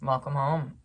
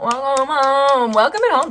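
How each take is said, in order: First: Said in the usual way. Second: Joyous welcome. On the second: Acted. Welcoming the listener's returned aspect home, with a jubilant cheer. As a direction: call it out like throwing open the door for a party. Joyful welcome, then "throw a party.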